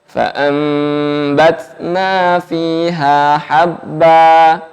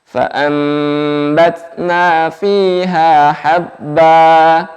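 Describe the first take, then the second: No difference in how they are said.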